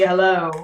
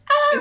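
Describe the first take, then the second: First: It is said in a lower, toned-down voice. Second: It is said in a high, squeaky voice.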